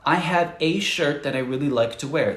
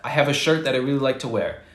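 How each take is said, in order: First: It is said slowly and carefully. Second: It is said quickly and casually.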